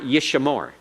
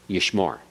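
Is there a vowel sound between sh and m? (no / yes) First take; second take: yes; no. First: A short vowel is heard between sh and m. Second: No vowel is heard between sh and m. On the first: The speaker calls it wrong. "It's not yishamore" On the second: The speaker calls it right. "No sound between the sheen and the main. It's silent"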